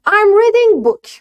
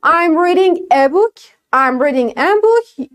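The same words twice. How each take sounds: First: I'm reading book, high and slow, said wrongly without the article; wrong version. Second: I'm reading a book, slow, with a clear a before book; correct version. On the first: Teacher shows the learners' error with no article. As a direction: show the mistake of dropping the article. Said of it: "اینم یعنی هیچی". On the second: Teacher models the correct sentence for the class. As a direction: stress the added a, slowly. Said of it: "بگم". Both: Shown as a demonstration.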